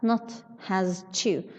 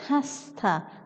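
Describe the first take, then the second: First: The s in has is voiced before to. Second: The s in has is voiceless before to. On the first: The speaker calls it wrong. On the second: The speaker calls it right. "We say"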